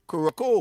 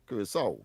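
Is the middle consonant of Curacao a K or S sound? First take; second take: K; S. First: The middle consonant is a hard K sound. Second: The middle consonant is an S sound. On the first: The speaker calls it wrong. "I used to pronounce it Curacao" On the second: The speaker calls it right. "it is pronounced with a S, a S sound"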